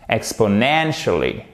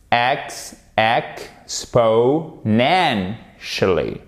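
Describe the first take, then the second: First: "Exponentially" joined up, falling after NEN; stress on NEN. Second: "exponentially" very slow, EX, po, NEN, shuh-lee; syllable by syllable. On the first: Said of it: "où se trouve l'accent tonique". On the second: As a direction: separate every syllable of "exponentially", stress NEN. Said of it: "on remet un petit coup d'accent tonique au début". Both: Shown as a demonstration.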